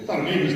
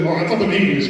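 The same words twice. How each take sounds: First: Self-correction with stress on English; English said as the right word; corrected line. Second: Said in the usual way. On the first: Shown as a demonstration. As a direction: fix the slip, leaning on English. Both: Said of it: "my bad".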